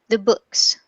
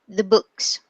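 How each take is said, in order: First: The vowel in 'the' is a weak schwa. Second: The same.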